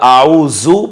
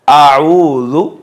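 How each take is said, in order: First: The middle consonant is a buzzing 'z' sound. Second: The middle consonant is a soft 'dh' sound. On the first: The speaker calls it wrong. "आऊजू पढ़ेंगे तो गलत हो जाएगा" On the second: The speaker calls it right. "नरमी के साथ अदा करेंगे"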